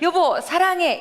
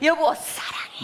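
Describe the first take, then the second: First: It is said in a normal full voice. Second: It is said in a soft whisper. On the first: "이렇게 하는 것보다" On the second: "속삭이는 거"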